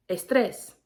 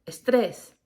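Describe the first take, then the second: First: Estrés with a rising end, es-TRES; Spanish estrés, stress on the last syllable; Spanish word. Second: Estrés with a falling end, es-TRES; estrés again, settling down; Spanish word. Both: Shown as a demonstration. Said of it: "in Spanish, it's".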